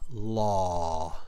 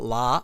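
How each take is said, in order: First: The vowel is a rounded 'aw' sound. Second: The vowel is an open 'ah' sound. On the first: The speaker calls it right. "So law" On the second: The speaker calls it wrong. "not la"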